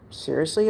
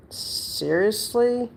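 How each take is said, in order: First: Said in the usual way. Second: "Seriously?" stretched out slowly and pitched higher, incredulous; drawn-out exasperation. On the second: Retold or imitated. Retorting to the old landlord, high and drawn-out disbelief.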